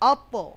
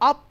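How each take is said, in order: First: The final consonant bounces with a slight echo. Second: The final consonant stops flat with no echo. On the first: The speaker calls it right. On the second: The speaker calls it wrong.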